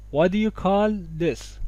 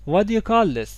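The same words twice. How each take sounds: First: Slow "waddiya... call... this"; آروم و شمرده. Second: "What do you" run together as "waddiya"; تلفظ تند و سرهم. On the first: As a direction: stretch out "What do you call this" for learners. («What do you call this» آروم) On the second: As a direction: join "What do you call this", no T in "What". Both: Shown as a demonstration.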